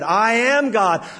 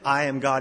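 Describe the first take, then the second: First: It is said loudly, with force. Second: It is said softly, without force.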